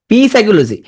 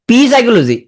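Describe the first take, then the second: Both takes have the same delivery.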